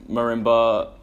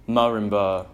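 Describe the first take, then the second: No difference in how they are said.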